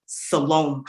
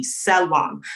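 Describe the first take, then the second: First: "Salome" said as suh-LOME, long o; the anglicised "Salome", ending like home; mispronounced name. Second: "Salom" said as SEH-lom, short vowels; correct name pronunciation. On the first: Retold or imitated. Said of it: "total abhorrence ... for the name". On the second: Shown as a demonstration. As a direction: say "Salom" the intended way, open short o at the end. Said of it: "as it was supposed to be".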